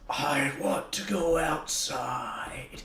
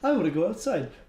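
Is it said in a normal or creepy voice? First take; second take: creepy; normal. First: It is said in a creepy voice. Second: It is said in a normal voice.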